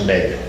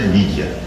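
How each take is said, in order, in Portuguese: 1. É dita com uma leitura portuguesa. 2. É dita com uma leitura inglesa. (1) "Nós diríamos média" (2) "em inglês se pronuncia mídia"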